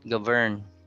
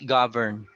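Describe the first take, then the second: First: The stress is on the second syllable. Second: The stress is on the first syllable. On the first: The speaker calls it wrong. "It's not govern" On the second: The speaker calls it right. "the stress is on the first syllable"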